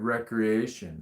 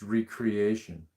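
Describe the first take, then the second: First: It is said as the ordinary word recreation. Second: It is said as re-creation, stressing re-.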